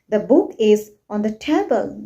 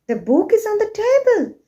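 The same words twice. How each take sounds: First: The voice falls at the end. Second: The voice rises at the end.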